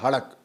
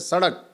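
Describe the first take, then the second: First: The word begins with an h sound. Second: The word begins with an s sound. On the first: This is how the Persians would say it. "अगर वो बोलेंगे तो उसमें आएगा हड़क" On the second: This is how we say it. "जैसे हम बोलते हैं सड़क"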